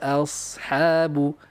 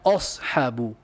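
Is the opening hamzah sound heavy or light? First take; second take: light; heavy. First: The opening vowel is light and thin. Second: The opening vowel is heavy and thick. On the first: The speaker calls it right. "Hamzah daiman muraqqaqah" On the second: The speaker calls it wrong. "Bukan ashabu"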